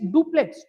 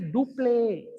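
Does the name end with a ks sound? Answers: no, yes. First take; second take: yes; no. First: The name ends with a ks sound. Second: The name ends without a ks sound. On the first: The speaker calls it wrong. "Don't say it's duplex" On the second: The speaker calls it right. "It is duple"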